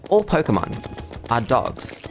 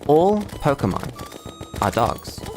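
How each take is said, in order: First: The sentence is spoken quickly. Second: The sentence is spoken slowly and deliberately. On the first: The speaker calls it wrong. "But I said that too fast" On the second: The speaker calls it right. "It's slow and methodical"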